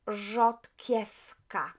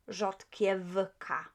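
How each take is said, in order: First: The w is said as an f sound. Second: The w is said as a v sound. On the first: The speaker calls it right. "we would pronounce V as F. So rzodkiewka" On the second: The speaker calls it wrong. "not rzodkiewka"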